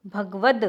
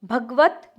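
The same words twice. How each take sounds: First: भगवद ending in voiced "d"; correct final d. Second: भगवत ending in unvoiced "t"; incorrect final t. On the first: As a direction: say भगवद as "bhagvad". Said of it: "द होता है". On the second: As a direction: say भगवत as "bhagvat". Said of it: "भगवत त नहीं होता है". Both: Shown as a demonstration.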